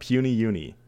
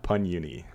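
First: The first word is said with two syllables. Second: The first word is said with one syllable. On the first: The speaker calls it right. "It is Puny Uni" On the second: The speaker calls it wrong. "not Pun Uni"

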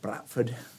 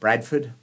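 First: It is said in a local Yorkshire accent. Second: It is said in the speaker's Australian accent.

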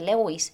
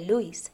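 First: The name is pronounced as it is spelled. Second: The name is pronounced differently from its spelling. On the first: The speaker calls it wrong. "que se escribe Lewis, pero no se dice Lewis" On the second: The speaker calls it right. "se dice Lewis"

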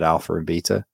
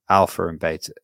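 First: Beta is said with a British-style pronunciation. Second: Beta is said with an American-style pronunciation. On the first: The speaker calls it wrong. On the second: The speaker calls it right.

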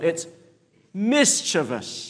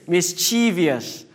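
First: The stress falls on the first syllable. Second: The stress falls on a later syllable. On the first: The speaker calls it right. "the emphasis is on the first syllable" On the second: The speaker calls it wrong. "That's the Singaporean way of pronouncing"

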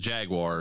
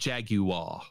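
First: Jaguar is said in the speaker's usual way. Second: Jaguar is said in a British way. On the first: "That's the way I always say it" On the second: "the British say it a weird way"

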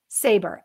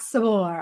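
First: The name is said plainly, like English 'saber'. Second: The name is said with a French-style flavor. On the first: The speaker calls it right. "last name Sabor, S-A-B-E-R" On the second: The speaker calls it wrong. "I gave you a little bit of a French zhuzh on your last name"

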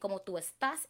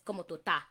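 First: Estás is said in full with both s sounds. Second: Estás is clipped, dropping the e and s sounds. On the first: "instead of saying" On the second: "You take out the E in the S"

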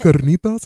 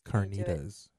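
First: It is said with a Spanish announcer accent. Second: It is said with an American English accent. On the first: "it's the Spanish announcer voice"

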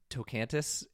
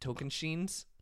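First: The name ends with a plain 'tis' sound. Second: The name ends with a 'shins' sound. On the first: The speaker calls it wrong. "I have been saying this wrong for a long time" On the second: The speaker calls it right. "It is Tokenshins"

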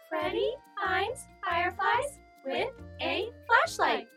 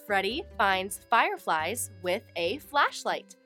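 First: It is said in a tiny, high voice. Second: It is said in a normal voice.

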